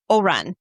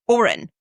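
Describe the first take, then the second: First: "Oran" with a full AH in the second syllable; mispronounced name. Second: "Oren" as OR-un, second syllable reduced; corrected pronunciation. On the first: Host attempting the author's character name, mispronounced as oh-RAHN. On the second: Host copying the author's correction of the name, said OR-un. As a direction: repeat "Oren" carefully as OR-un. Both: Real, not acted. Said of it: "I never pronounce anything ever correctly".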